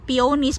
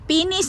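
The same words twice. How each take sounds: First: It is said the way it is spelled. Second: It is said with the accepted pronunciation. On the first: The speaker calls it wrong. "pag binasa mo" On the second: The speaker calls it right. "Peonies ang pronunciation"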